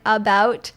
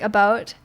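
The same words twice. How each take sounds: First: The vowel is said clearly, the standard way. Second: The vowel leans slightly toward a Canadian sound. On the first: "I don't clearly say like about" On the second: "I might say like about"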